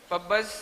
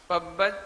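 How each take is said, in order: Both takes have the same delivery.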